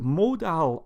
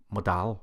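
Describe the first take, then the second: First: MODAL with a long, drawn-out MO, as in "mode"; trying a pronunciation. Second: MODAL with a short first vowel and full "dal"; lower, questioning MODAL, quick "muh" then "DAL"; alternative pronunciation. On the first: Tutor wondering aloud how to say it, first pronunciation of MODAL with long "moh". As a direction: say MODAL with a full, stressed "moh". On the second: Tutor offering the other option, MODAL with short first vowel and full "dal". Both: Shown as a demonstration. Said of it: "is it modal or".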